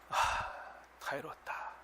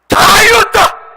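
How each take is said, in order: First: It is said weakly, with a sigh. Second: It is said loudly, as a shout.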